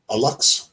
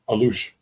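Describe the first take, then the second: First: The word ends with a 'ks' sound. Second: The word ends with a 'sh' sound. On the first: The speaker calls it wrong. "You were probably saying a lux" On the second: The speaker calls it right. "How do you say it?"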